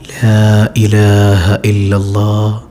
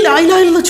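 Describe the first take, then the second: First: It is said softly and gently. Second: It is said forcefully and insistently. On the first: The patient is gently reminded without pressure. The speaker calls it right. "ചെവിയുടെ പതിയെ" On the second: The patient is being pressured to say it. The speaker calls it wrong. "ചൊല്ല് ചൊല്ല്"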